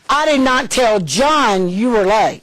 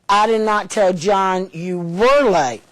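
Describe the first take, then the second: First: The word John carries the strongest stress. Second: The word were carries the strongest stress. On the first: Someone other than John was told. "I told somebody else who's over John" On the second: The lateness is ongoing, not just past. "I told him you are all the time"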